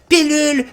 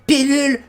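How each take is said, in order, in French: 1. La première voyelle se prononce comme un 'i' net. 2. La première voyelle se prononce comme un 'i' net.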